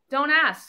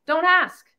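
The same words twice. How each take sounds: First: Said in the usual way. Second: Don't ask. snapped out louder, falling hard on ask. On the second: Real, not acted. Speaker warning listeners off small talk, firm louder command.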